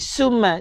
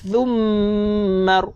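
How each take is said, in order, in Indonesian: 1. Bunyi pertama dibuat dengan gigi rapat. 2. Bunyi pertama dibuat dengan lidah keluar. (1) "Jangan sekali kita baca dengan gigi berjumpa dengan gigi" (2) "Kita kena baca-baca dengan lidah keluar sedikit"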